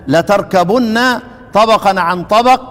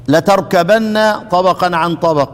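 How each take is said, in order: The two takes are said the same way.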